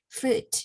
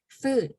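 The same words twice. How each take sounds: First: The vowel is short and relaxed. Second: The vowel is long and stretched. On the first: The speaker calls it right. "I would say food" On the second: The speaker calls it wrong. "I don't say food"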